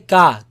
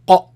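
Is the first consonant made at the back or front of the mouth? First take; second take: front; back. First: The consonant is made further forward, like English k. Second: The consonant is made deep back against the soft palate. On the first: The speaker calls it wrong. "You don't say ka" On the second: The speaker calls it right. "Feel it all the way back touching the soft palate"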